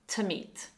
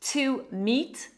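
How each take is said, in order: First: The word to is weakened to schwa. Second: The word to has a full vowel.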